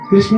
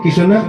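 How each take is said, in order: First: The opening cluster is said as one sound. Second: A vowel breaks up the opening cluster. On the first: "कृष्ण नहीं बोल पाते" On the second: "क्या बोलते हैं? किशन"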